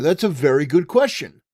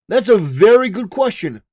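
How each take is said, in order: First: Said in the usual way. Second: Higher, louder pointed repeat; emphatic repeat. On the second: Real, not acted. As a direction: hammer the point home, louder.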